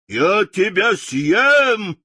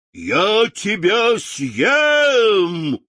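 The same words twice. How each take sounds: First: Slow, loud lion roar. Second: Slow, loud, drawn-out roar; roaring lion. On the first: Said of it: "повторил лев и яростно бросился". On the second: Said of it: "проревел". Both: A narrator's reading. (рычащий лев)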